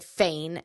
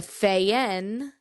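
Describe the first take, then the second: First: The name is said as 'Fane'. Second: The name is said as 'Fayen'. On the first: The speaker calls it wrong. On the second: The speaker calls it right.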